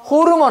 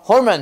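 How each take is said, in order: First: It is said as the Korean loanword. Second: It is said with English pronunciation. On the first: The speaker calls it wrong. "호르몬 아니고" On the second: The speaker calls it right. "발음 외워야 돼"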